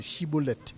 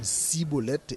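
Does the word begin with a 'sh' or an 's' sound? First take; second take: sh; s. First: The word begins with a 'sh' sound. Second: The word begins with an 's' sound. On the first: The speaker calls it right. "c'est chibolette" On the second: The speaker calls it wrong. "il a prononcé comme cibolette"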